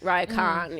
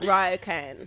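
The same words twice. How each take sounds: First: The word is said with Japanese-style pronunciation. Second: The word is said with English-style pronunciation.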